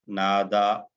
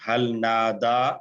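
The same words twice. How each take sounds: First: Said in the usual way. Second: हल नादा drawn out with a rise on Nada; slow question. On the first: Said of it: "नअम". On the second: Shown as a demonstration. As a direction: ask हल नादा slowly, rising on Nada. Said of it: "अल्लाह को पुकारने की बात".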